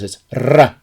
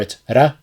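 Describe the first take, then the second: First: The r is a long rolled trill. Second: The r is a single quick tap. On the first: "if it's spelled with two r's" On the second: "If it's spelled with one r"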